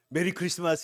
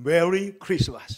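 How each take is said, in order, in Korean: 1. 한국식 발음으로 합니다. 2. 영어 같은 발음으로 합니다. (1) "우리는 메리 크리스마스 이러는데" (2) "노엘이는 메리 크리스마스 이렇게 하잖아요"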